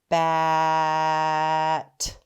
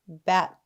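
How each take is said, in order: First: The two syllables are said apart with a pause. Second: The two syllables are blended quickly together.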